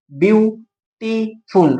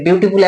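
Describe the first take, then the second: First: "বিউটিফুল" in three slow, separated beats; syllable by syllable. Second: Said in the usual way. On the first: Shown as a demonstration. Teacher counting syllables for students, "বিউটিফুল" broken in three. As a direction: break "বিউটিফুল" into বিউ, টি, ফুল with pauses. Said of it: "তিনটে syllable আছে". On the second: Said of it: "একবারে বলতে পারছি না".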